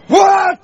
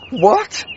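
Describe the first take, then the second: First: It sounds angry. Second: It sounds miserable, with a gasp.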